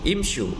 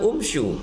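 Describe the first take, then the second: First: The word begins with an i vowel. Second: The word begins with a u vowel. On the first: The speaker calls it right. "hamzah wasalnya tidak berharokat dhammah tapi berharokat kasroh" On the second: The speaker calls it wrong. "bukan umsyu"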